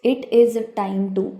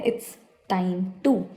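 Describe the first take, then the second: First: It and is are said as separate words. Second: It is contracted to a single syllable, its. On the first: This is how the phrase is said in older English. "ये बोलते हैं इट इज़" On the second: This is how the phrase is said in modern English. "ये ना short form ले रखी है"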